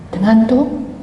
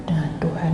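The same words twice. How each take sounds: First: Said in the usual way. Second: Quiet repeat of Dengan Tuhan; hushed emphatic echo; soft echo. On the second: Real, not acted. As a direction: let Dengan Tuhan sink in softly.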